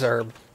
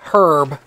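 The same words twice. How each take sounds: First: The word is said the American way. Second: The word is said the British way. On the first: "Oh yeah, it is herb. Duh" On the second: "because the British say herb"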